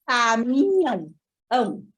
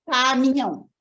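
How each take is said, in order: First: Caminhão broken slowly as cami-nhão, then ão; child claps Caminhão slowly in pieces; split syllables. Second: Caminhão said in two claps, in one go; child says Caminhão in two beats. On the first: Child clapping Caminhão, slow broken syllables. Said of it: "A criança faz assim". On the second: Child clapping Caminhão twice, quick. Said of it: "Ou ela faz". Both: Shown as a demonstration.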